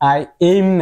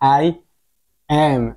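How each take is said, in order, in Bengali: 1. দ্বিতীয় শব্দটি 'aim' এর মতো করে বলা হয়। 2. দ্বিতীয় শব্দটি একটি ছোট স্বরধ্বনি দিয়ে বলা হয়। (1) "আই এম না" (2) "এর উচ্চারণ হয়েছে কি এ"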